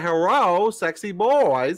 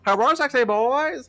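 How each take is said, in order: First: High, slow, hammed-up hello; imitating the chat greeting. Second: High loud mock greeting; hammed-up greeting. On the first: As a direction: stretch out the greeting in a silly high voice. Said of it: "He said". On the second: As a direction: squeal the greeting like a fan. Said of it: "That's how he said it".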